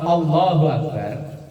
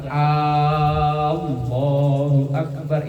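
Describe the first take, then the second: First: The first vowel is said short. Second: The first vowel is drawn out long. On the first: God is the Greatest. "A-nya dibaca pendek" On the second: Is God the Greatest? "A-nya dibaca panjang"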